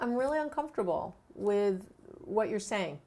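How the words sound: It sounds calm and warm.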